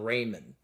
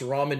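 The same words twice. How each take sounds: First: The first syllable sounds like 'ray'. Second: The first syllable sounds like 'rah'. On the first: It is the product's punning name. "he pronounces them ramen" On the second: It is the usual name of the food. "I'm not mispronouncing it. I know it's ramen noodles"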